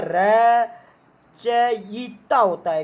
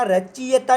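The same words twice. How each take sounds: First: रचयिता stretched out very slowly; very slow correct form. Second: रचयिता said quickly as the wrong spelling; wrong form. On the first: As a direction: drag out रचयिता syllable by syllable. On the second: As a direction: tap रचयिता lightly, as the mistake. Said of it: "रचयिता नहीं होता". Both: Shown as a demonstration.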